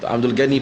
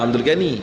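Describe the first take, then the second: The two takes are said the same way.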